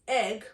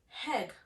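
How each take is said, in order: First: The word begins directly with a vowel sound. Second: The word begins with an added H sound. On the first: "that has no H whatsoever" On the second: "we would say heg"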